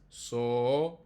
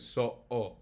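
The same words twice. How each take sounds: First: So said smoothly with no break in the throat; plain So, no catch in the middle; So, wrongly without the glottal stop. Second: So-o split by a glottal stop. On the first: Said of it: "Not correct". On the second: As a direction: catch the air in the throat mid so-o. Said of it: "The correct is". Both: Shown as a demonstration.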